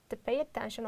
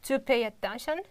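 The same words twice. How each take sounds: First: The vowel in 'to' is reduced to schwa. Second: The vowel in 'to' is full. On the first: The speaker calls it right. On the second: The speaker calls it wrong.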